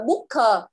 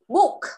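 First: An extra syllable follows the final k sound. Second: The word ends crisply on the k sound. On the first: The speaker calls it wrong. "con đừng có đọc là booker" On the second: The speaker calls it right. "Cái âm k"

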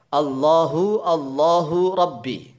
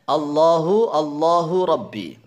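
The two takes are said the same way.

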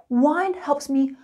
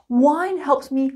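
No difference in how they are said.

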